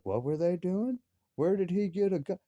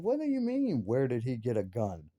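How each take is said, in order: First: Higher, lightly imitating the mother's panicked question. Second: Said in the usual way. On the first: Father imitating the other mother asking where the gun came from, higher. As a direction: voice her worried question, a touch higher. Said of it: "And she's like". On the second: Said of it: "I said".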